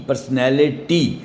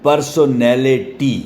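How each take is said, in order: First: "پرسنالٹی" slowly as per-s-nal-le-tee; syllable by syllable. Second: "پرسونالٹی" slowly as par-so-nel-le-tee; regional pronunciation. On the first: Teacher showing five syllables to students, "پرسنالٹی" slowly split. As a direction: spell out the beats of "پرسنالٹی", short middle s'n, no "so". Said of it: "اس کے پانچ syllable بن گئے". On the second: Teacher showing the regional variant, "پرسونالٹی" slowly in syllables. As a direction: sound a full "so" in "پرسونالٹی", beat by beat. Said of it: "اس طرح بھی syllable بنتے ہیں". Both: Shown as a demonstration.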